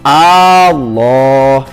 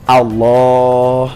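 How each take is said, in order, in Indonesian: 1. Vokal pertama dibaca panjang. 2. Vokal pertama dibaca pendek. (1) "tidak boleh membacanya" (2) "tapi harus"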